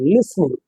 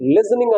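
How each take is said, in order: First: The middle consonant is an s sound. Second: The middle consonant is a z sound. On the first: The speaker calls it right. "ఇస్ అని పలకాలి" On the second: The speaker calls it wrong. "లిజనింగ్ అనకూడదు"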